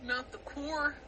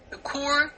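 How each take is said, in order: First: Quietly mimicking a Californian "Not the core"; murmured California accent impression. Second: Punching "The core" in a mock California accent. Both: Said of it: "California accents are very funny".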